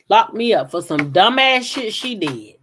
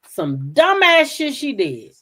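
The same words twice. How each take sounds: First: Said in the usual way. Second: Dumbass hit higher and slowed; slow indignant repeat punching dumbass; stress on dumbass. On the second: Real, not acted. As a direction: lean hard on dumbass, drag the phrase.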